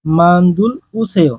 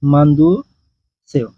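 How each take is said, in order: First: মান্দুল উসেয় with the ল sounded, drawn out slowly; slow mistaken reading of মান্দুল উসেয়, l left in; wrong pronunciation. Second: মান্দু সেও with no l, a pause before সেও; correct pronunciation. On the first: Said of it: "উচ্চারণ এভাবে হবে না". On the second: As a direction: say মান্দু, then সেও, dropping the l. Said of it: "উচ্চারণ এভাবে হবে না, হবে". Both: Shown as a demonstration.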